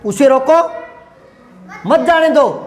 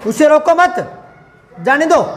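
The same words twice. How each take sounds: First: There is a pause after 'रोको'. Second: There is a pause after 'मत'. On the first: Stop him and do not let him go. "ये दो एक साथ बोलूंगा, यहां रुकूंगा" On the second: Do not stop him; let him go. "ये तीन साथ बोलूंगा और ये दो एक साथ बोलूंगा"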